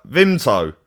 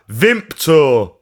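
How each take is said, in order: First: "Vimto" said cleanly, no p sound; plain Vimto. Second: "Vimto" said as Vimpto, adding a p sound. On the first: Southerner repeats the drink's name, saying "Vimto" without a p. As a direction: say "Vimto" with no p, Vim-to. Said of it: "I was like". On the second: Flatmate from York names the drink, saying "Vimto" as Vimpto. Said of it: "he's like". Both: Retold or imitated.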